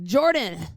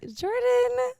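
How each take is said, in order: First: The name is said in an irritated tone. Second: The name is said in a sweet, coaxing tone. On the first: The speaker is bothered by him. "if I'm really bugged by him" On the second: The speaker wants a favor from him. "Change your tone"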